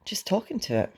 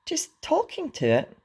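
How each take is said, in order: First: Embarrassed mumble. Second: High-pitched, incredulous echo; astonished gasp. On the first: Hiccup owns up to Fishlegs, embarrassed mumble. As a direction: own up in a small embarrassed voice. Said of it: "mumbled Hiccup, very embarrassed". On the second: Fishlegs echoes Hiccup's confession, gasping in astonishment. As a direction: throw it back in astonishment, voice shooting up. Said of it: "gasped Fishlegs in astonishment". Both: A narrator's reading.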